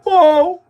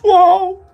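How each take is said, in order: The two takes are said the same way.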